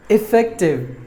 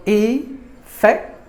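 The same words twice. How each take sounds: First: Said in the usual way. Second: "Effective" broken slowly into E, fec, tive; syllable by syllable. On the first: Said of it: "Word number one". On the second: Shown as a demonstration. Teacher breaking down the word for learners, "Effective" syllable by syllable. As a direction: separate the three syllables of "Effective" with pauses. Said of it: "There are three syllables".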